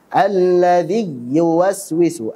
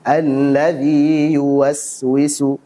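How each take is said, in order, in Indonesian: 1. Vokal i panjang ditekan seperti konsonan y. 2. Vokal i panjang mengalir terbuka tanpa penyempitan. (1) "menempelkan tengah lidah ke langit-langit atas ... salah" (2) "Itu yang benar"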